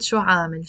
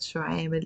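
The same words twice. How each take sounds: First: عامل with an open long aa, "aamil"; alternative aa pronunciation. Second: عامل with a long eh, "EH-mil"; village eh pronunciation. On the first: Teacher giving the other pronunciation, open aa in عامل. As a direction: say عامل as "AA-mil", not "EH-mil". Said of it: "we can also pronounce it". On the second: Teacher showing how her village says it, eh in عامل. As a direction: say عامل with eh in place of aa. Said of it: "I like to pronounce it". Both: Shown as a demonstration.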